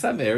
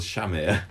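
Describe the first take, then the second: First: "Samir" said with a clear s sound at the start; "Samir" as it should be said; right pronunciation. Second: "Shamir" said with a sh sound at the start; "Shamir" as the show first said the name; wrong pronunciation. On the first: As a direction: begin "Samir" with a plain s, as in sun. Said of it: "it's actually Samir". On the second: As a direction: begin "Shamir" with sh, as in shop. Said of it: "No, we don't pronounce it like that". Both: Shown as a demonstration.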